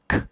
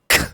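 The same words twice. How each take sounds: First: The k sound is said plainly, without extra force. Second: The k sound is punched out with sharp force. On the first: "A K sound is this" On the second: "but if I punch it, it's this"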